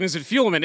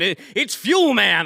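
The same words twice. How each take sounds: First: "Fuelman" with a quick, weak "mun" ending; reduced ending. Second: "Fuelman" drawn out, with a full, stressed MAN; emphatic Fuelman. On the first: Retold or imitated. Host retelling his doubt about the name, "Fuelman" ending in a weak "mun". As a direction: stress only the first half of "Fuelman". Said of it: "and then I'm like". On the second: Shown as a demonstration. Host settling the company's name, "Fuelman" slow with emphatic MAN. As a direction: punch out both halves of "Fuelman", slowly. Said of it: "I like the emphasis you put".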